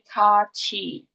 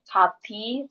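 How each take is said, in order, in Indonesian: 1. Konsonan tengahnya bunyi ch. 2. Konsonan tengahnya bunyi t biasa. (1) "tapi kaci" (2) "bukan dibacanya cut I, kati"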